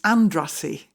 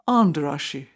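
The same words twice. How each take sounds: First: The name is said with an anglicized pronunciation. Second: The name is said with a Hungarian pronunciation. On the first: This is how the locals in Yorkshire said it. The speaker calls it wrong. "that's how we pronounced it" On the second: This is how the name is properly said. The speaker calls it right. "it should have been Andrassy"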